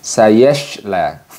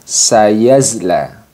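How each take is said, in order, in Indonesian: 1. Konsonan di tengah adalah sh yang mendesis. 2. Konsonan di tengah adalah z bersuara. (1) "kurang tepat jika kita membacanya dengan sayashla" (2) "Kurang tepat ketika kita membaca sayasla ini dengan sayazla"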